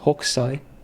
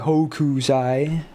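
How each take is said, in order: First: The vowel after the k is dropped. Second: The vowel after the k is clearly pronounced. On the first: The speaker calls it right. "you don't pronounce the U" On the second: The speaker calls it wrong. "it's not Hokusai"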